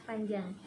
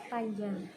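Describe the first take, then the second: Both takes have the same delivery.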